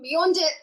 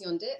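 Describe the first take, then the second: First: The phrase is said at normal speed, fully. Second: The phrase is said very fast, clipped.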